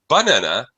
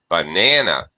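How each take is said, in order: First: The stress is on the first syllable. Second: The stress is on the second syllable. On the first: "If you stress the first syllable" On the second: "stressing the second syllable"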